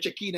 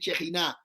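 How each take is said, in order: First: The middle consonant is a hard k sound. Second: The middle consonant is a raspy throat sound. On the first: The speaker calls it wrong. "La gente dice chequina y no es chequina" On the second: The speaker calls it right. "es chejiná"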